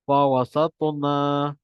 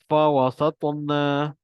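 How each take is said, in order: The two takes are said the same way.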